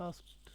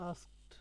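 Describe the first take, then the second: The two takes are said the same way.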